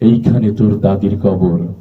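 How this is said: It is recited softly with moving, heartfelt feeling. The recitation is beautiful and moves listeners to tears. The speaker calls it right. "অনেক সুন্দর ছিল, সে আবৃত্তি করছে এইভাবে"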